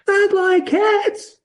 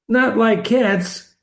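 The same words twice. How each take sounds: First: It is said in a shrill, passionate voice. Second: It is said in a plain, calm voice.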